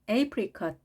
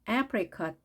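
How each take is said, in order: First: The first vowel sounds like 'ay'. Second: The first vowel sounds like 'eh'. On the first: "첫 글자 모음 A가 에 혹은 A로 발음이 됩니다" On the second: "첫 글자 모음 A가 에 혹은 A로 발음이 됩니다"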